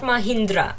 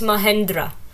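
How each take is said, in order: First: The middle syllable has an 'ih' vowel. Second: The middle syllable has an 'eh' vowel. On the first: The speaker calls it wrong. "not Mahindra" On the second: The speaker calls it right. "It's Mahendra"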